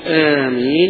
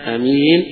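First: The first vowel is drawn out long. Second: The first vowel is kept short. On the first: "بالمد" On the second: "وبالقصر"

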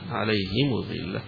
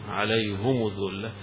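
First: The h takes i and the m takes u. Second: Both the h and the m take u vowels. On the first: "بكسر وضم" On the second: "يضم ضمتين"

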